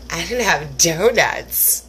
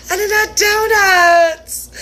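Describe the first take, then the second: First: Mock sob. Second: Hammed-up sobbing wail, slow; mock crying. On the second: Wailing to herself about missing donuts, in mock sobs. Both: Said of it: "And then I was like".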